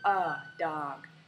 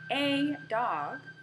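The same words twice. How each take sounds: First: The word 'a' is reduced to a schwa. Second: The word 'a' has a full vowel. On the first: "turns into a dog because it is a function word and not stressed" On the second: "a dog turns into"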